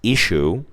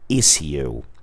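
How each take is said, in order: First: It is said with an American pronunciation. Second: It is said with a British pronunciation. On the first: "In American English, this word is pronounced issue" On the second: "in British English ... in some areas they pronounce it issue"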